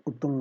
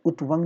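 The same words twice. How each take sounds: First: उत्तुंग with double t, "ut-tung"; correct form. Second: उत्वंग with a v, "ut-vang"; wrong form. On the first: Teacher giving the correction, उत्तुंग as "uttung". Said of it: "उत्तुंग होता है". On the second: Teacher rejecting a mistake, उत्वंग as "utvang". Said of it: "उत्वंग नहीं होता". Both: Shown as a demonstration.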